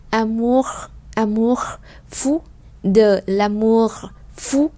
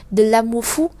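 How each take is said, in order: First: "amour" and "fou" drawn out with the R sounded; slow, clear R. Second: "de l'amour fou" run together, no R at the end of "amour"; fast, R dropped. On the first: Teacher showing the slow pronunciation of "amour". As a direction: stretch "de l'amour" so the R is heard. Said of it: "khi đọc chậm thì chúng ta sẽ thấy là âm R ra được rất là rõ". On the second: Teacher showing how natives say it fast. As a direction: glide over "amour" quickly, dropping the R. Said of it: "khi mà đọc nhanh thì người ta đọc là". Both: Shown as a demonstration.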